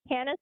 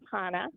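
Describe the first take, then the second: First: The name is said with English sounds. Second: The name is said with Hebrew sounds. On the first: "in the English sounding way" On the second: "flip into the Hebrew"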